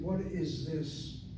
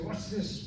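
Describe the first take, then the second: First: Each word is said separately and fully. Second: The first two words run together into one. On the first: "It sounds like separate words" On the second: "I'm running the words together"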